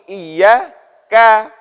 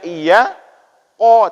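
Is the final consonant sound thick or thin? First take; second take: thin; thick. First: The k sound is thin and light. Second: The k sound is thick and heavy. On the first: The speaker calls it right. "tapi iya ka, tipiskan" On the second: The speaker calls it wrong. "jangan dibaca iya ko"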